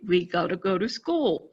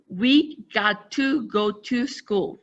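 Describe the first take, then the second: First: 'Got to' is reduced into one contracted word. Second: 'Got to' is said as two full words. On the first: "if you look at the contraction" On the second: "we didn't say"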